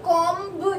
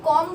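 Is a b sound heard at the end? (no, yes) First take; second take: yes; no. First: A b sound is heard at the end. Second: No b sound is heard at the end. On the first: The speaker calls it wrong. "कभी भी कॉम्ब नहीं बोलते" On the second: The speaker calls it right. "कॉम बोलते हैं, और ये बी silent होता है"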